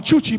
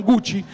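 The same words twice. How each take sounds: First: Chuchi said with ch at both starts; Chuchi, ch sound twice, played for a laugh; joke mispronunciation. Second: Said in the usual way. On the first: Shown as a demonstration. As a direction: say Chuchi as a comic garble of Gucci. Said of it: "no se llamaban Gucci". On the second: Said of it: "se llamaban Chuchi".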